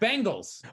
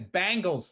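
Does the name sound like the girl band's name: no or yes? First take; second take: no; yes. First: It is not said like the band's name. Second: It is said like the girl band's name. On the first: "it's Bengals" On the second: "My buddy says, he says Bangles, like the girl band"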